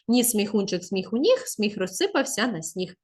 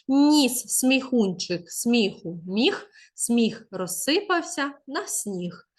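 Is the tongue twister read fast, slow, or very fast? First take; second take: very fast; slow. First: It is read at the quickest pace. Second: It is read slowly and clearly. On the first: "Та ще швидше" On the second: "спочатку треба прочитати повільніше"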